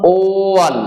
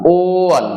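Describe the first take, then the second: The two takes are said the same way.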